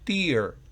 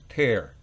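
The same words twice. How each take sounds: First: The vowel sounds like 'ee'. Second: The vowel sounds like 'eh'. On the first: It means a drop from the eye. "fíjense que es una I" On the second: It means to rip something.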